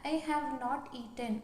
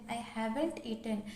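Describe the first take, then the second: First: Have and not are said as separate full words. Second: Have and not are joined as haven't.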